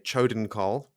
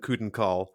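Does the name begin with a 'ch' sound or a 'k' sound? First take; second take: ch sound; k sound. First: The name begins with a ch sound. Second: The name begins with a hard k sound. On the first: The speaker calls it wrong. "I'm not going to say Chodenkarl because that sounds too much like chode" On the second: The speaker calls it right. "So I will continue to call them the Kudenkarl"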